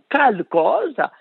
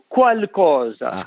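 First: The word begins with a plain k sound. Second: The word begins with a kw sound. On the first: "noi che pronunciamo qualcosa, scriviamo come noi pronunciamo C-A-L-C-O-S-A" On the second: "quelli che pronunciano qualcosa, scrivono Q-U-A-L"

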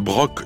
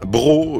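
First: The final C sound is pronounced. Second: The final C sound is silent. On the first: It is the name of the town. "on prononce le C" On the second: It is the ordinary word for a jug. "là on ne prononce pas le C"

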